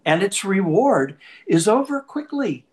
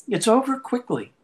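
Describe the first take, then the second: First: Said in the usual way. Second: Higher, pressed repeat of "over quickly"; emphatic repeat. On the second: Real, not acted. Preacher to congregation, echoing the point higher. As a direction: lift the echo of "It's over quickly" high.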